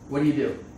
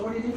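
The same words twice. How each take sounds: First: The question is asked in a hard, blunt tone. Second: The question is asked in a relaxed, friendly tone. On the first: The asker is screening someone like an interviewer. "It just felt like a hard interview question to me" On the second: The asker just wants to get to know someone. "But I say it in a casual way, not like a hard interview way"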